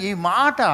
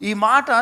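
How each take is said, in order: Both takes have the same delivery.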